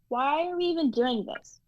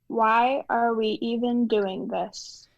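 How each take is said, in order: First: The line is said too fast. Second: The line is said more slowly.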